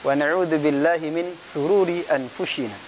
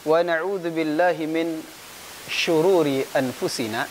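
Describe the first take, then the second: First: The word after min begins with an s sound. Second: The word after min begins with an sh sound. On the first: The speaker calls it wrong. "dia terbalik" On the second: The speaker calls it right. "seharusnya ... shin dulu baru sin"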